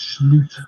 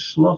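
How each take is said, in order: First: The vowel sounds like the one in 'boot'. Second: The vowel sounds like the one in 'slot'. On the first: The speaker calls it right. "it's Sloot" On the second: The speaker calls it wrong. "is Slot how you pronounce your name?" And he said, "No"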